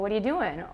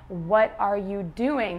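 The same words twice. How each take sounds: First: The words are said quickly and run together. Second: Each word is said clearly and separately.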